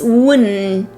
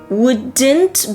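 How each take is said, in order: First: The D and T merge into an N sound. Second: The D and T sounds are pronounced clearly.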